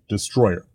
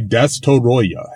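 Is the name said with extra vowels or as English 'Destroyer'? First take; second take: English; extra vowels. First: The name sounds like the English word destroyer. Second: The name has extra vowels between its consonants. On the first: This is the name used in the dub. "if you listen to the dub, the international dub, they say Destroyer" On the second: This is the original Japanese name. "if you listen to the Japanese, when they say Destoroyah"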